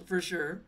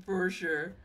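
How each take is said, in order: Both takes have the same delivery.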